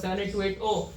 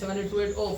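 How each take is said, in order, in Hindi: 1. अंक धीरे और शांति से बोले जाते हैं। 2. अंक जल्दी-जल्दी हड़बड़ी में निकाल दिए जाते हैं। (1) "तसल्ली से बोलना, ज्यादा जल्दबाजी में नहीं... जैसे मैंने बोला" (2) "अब तुम बोल रहे हो जल्दी जल्दी"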